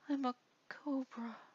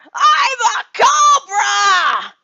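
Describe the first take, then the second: First: It is said quietly, without confidence. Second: It is said loudly, with confidence.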